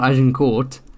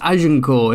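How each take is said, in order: First: The final T is pronounced hard. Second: The final T is silent. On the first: The speaker calls it wrong. "it's not" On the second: The speaker calls it right. "you don't have a hard T at the end of a French word"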